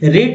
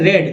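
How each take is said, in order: First: The vowel is long, like 'reed'. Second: The vowel is short, like 'red'. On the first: It is the present form, to read. "रीड means होता है पढ़ना" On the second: It is the past form, already read. "यहाँ पर रेड बोलना है"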